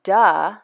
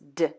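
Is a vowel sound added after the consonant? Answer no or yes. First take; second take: yes; no. First: The consonant has an extra vowel after it. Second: The consonant is said alone with no vowel. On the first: The speaker calls it wrong. "they'll say duh when it's not duh" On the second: The speaker calls it right. "It's just d"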